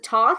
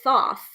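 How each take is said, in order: First: The name begins with a hard T sound. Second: The name begins with a TH sound. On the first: "a hard hard T" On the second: "a T H blend"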